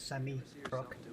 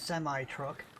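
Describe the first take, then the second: First: It is pronounced the English way. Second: It is pronounced the American way. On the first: "English people would say a semi truck" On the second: "Americans would say a semi truck"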